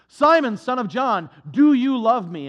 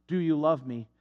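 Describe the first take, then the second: First: Loud, searching question to Peter; Jesus calling out. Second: Said in the usual way. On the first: Acted. Jesus asks Peter on the shore, a loud searching question. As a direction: call it out across the shore, pressing him.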